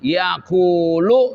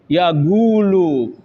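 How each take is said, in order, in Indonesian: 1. Konsonan tengahnya adalah bunyi q yang dalam. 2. Konsonan tengahnya adalah bunyi g.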